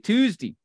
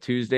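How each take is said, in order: First: The last syllable ends with a y-sound. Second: The last syllable is a plain 'day'. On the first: "you would like put a Y in your day" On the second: "instead of Tuesday"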